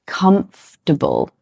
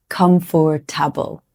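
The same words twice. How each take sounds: First: Comfortable said KUMF-ter-bul, three syllables; comfortable with the second syllable dropped, KUMF-ter-bul; correct comfortable. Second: Comfortable said as four syllables, KUM-for-ta-bul; comfortable with every letter sounded, KUM-for-ta-bul; wrong comfortable. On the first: Teacher models the usual comfortable. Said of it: "Usually we say". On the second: Teacher shows the wrong comfortable. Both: Shown as a demonstration.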